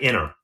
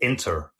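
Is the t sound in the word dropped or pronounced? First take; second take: dropped; pronounced. First: The t after the n is dropped. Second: The t after the n is clearly pronounced. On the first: This is the everyday casual form. "most people would just say inner" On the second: This is the careful newscaster form. "some newscasters will say"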